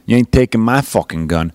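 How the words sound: It is said in a Southern-sounding accent.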